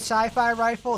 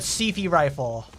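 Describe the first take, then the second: First: Sci-fi is said with long vowels, like 'sigh-fye'. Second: Sci-fi is said with short vowels, like 'siffy'. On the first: "do you mean sci-fi rifle?" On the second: "they're gonna pronounce it Sifi"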